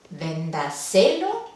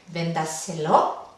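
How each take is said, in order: First: The stress is on the third syllable. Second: The stress is on the fourth syllable. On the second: "¿Podría ir última?"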